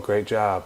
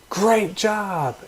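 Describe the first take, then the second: First: It is said in a flat monotone. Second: It is said with lively, varied pitch. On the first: The speaker calls it wrong. "everything is all monotone like this" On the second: The speaker calls it right. "you use lots of different tones and pitches"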